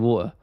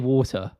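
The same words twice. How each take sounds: First: The T in the middle is dropped. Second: The T in the middle is clearly pronounced. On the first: "I say water. It just it rolls off. It's easier to say" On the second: "I don't say water"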